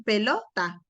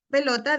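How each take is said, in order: First: «pelota» partida con una pausa dentro, donde no corresponde; pausa mal puesta. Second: Said in the usual way. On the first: Shown as a demonstration. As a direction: segmentar «pelota», cortándola antes del final. («pelota» entrecortada por una pausa) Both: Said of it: "van poniendo pausas donde no corresponden".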